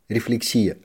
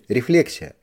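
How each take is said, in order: First: The stress is on the third syllable. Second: The stress is on the second syllable. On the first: The speaker calls it wrong. "я привык по жизни делать его на третьем" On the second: The speaker calls it right. "считается грамотным делать ударение на втором слоге"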